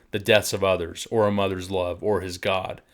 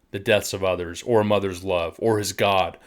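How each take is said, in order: The two takes are said the same way.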